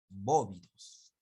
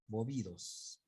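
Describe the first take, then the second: First: The stress is on the first syllable. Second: The stress is on the second syllable. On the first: The speaker calls it right. "pero ahí está la tilde" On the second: The speaker calls it wrong. "recién están aprendiendo esa palabra, dicen bovidos"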